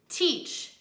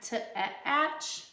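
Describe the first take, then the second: First: The vowel is a long 'ee' sound. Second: The vowel is a short 'a' sound. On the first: The speaker calls it right. "Let's try the long vowel sound" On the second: The speaker calls it wrong. "That doesn't sound right"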